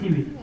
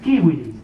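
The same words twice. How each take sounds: First: It begins with an s sound. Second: It begins with a k sound. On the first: The speaker calls it wrong. "no es civilis" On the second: The speaker calls it right. "Por eso es civilis"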